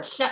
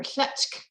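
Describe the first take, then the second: First: "shutch" ending on ch, no K; "shutch" closed on a ch sound; variant without K. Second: "shutchk" with a K after the ch; "shutchk", ch followed by a final K; variant with K. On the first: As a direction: say "shutch" with nothing after the ch. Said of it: "it could also be". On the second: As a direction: finish "shutchk" on a K sound. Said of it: "with a K". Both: Shown as a demonstration.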